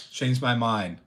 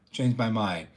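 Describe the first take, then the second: No difference in how they are said.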